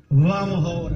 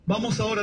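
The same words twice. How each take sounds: First: Vamos ahora said louder, lower, for the church to repeat; call and response. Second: Said in the usual way. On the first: Shown as a demonstration. Pastor leading the church in repeating, firmly. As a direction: lead the congregation in "Vamos ahora". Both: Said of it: "diga conmigo".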